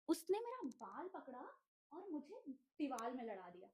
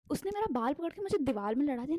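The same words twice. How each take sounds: First: Mumbled aside. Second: Said in the usual way. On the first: Real, not acted.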